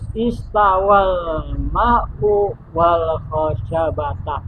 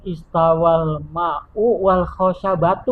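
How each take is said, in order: First: The last word ends with an 'a' vowel. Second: The last word ends with an 'u' vowel. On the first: The wood is what the water reached. The speaker calls it right. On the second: The wood is joined to the water as a second subject. The speaker calls it wrong. "Nggak boleh"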